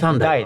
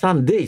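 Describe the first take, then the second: First: The last vowel sounds like 'eye'. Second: The last vowel sounds like 'ay'. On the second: "三デイじゃねえんだからね"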